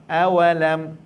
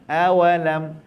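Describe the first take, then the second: The two takes are said the same way.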